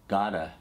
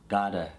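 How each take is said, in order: No difference in how they are said.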